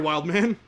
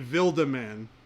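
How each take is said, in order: First: The name is pronounced the English way. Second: The name is pronounced the German way. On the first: The speaker calls it right. "sorry, Wildman. My apologies" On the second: The speaker calls it wrong. "if you were to pronounce that in German"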